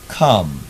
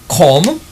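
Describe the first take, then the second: First: The vowel sits between 'or' and 'a' sounds. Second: The vowel sounds close to an 'or' sound. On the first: The speaker calls it right. "you could hear a little element of or in it and a little element of a" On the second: The speaker calls it wrong. "instead of saying come"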